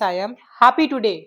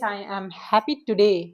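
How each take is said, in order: First: The stress is on happy. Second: The stress is on today.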